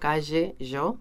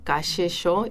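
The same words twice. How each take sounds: First: The ll and y sound voiced, like zh. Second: The ll and y sound voiceless, like sh. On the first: This is the Uruguayan way of saying it. "nosotros más sonoro" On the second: This is the Buenos Aires way of saying it. "ellos lo hacían más sordo"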